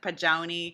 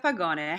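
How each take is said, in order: First: The g is said like a j. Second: The g is said as a hard g. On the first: The speaker calls it wrong. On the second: The speaker calls it right.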